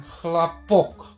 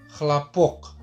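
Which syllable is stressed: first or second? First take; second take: second; second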